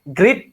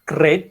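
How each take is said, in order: First: The word is pronounced in a clearly nonstandard way. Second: The word has a slightly accented r sound. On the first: The speaker calls it wrong. "memang salah total begitu" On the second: The speaker calls it right. "ada sedikit R-nya sih nggak nggak apa-apa sebenarnya"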